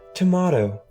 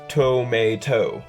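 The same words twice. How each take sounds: First: It is said in a polished, posh accent. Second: It is said in a plain, everyday accent. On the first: The speaker calls it wrong. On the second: The speaker calls it right.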